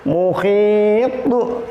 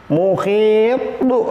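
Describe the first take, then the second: The two takes are said the same way.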